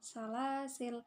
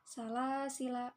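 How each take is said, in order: First: The word ends on a consonant, no vowel. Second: The final vowel is held long. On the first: "atau dibaca dengan sukun" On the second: "yang pertama dibaca panjang"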